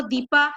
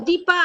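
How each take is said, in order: First: दीपा with weight on a long "dee"; stress on DEE. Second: दीपा with a short, quick "i". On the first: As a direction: lean on the first syllable of दीपा. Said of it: "पूरा डी में जोर देते हैं". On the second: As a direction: keep the first vowel of दीपा short. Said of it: "दीपा ऐसे बोलते हैं तो आई". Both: Shown as a demonstration.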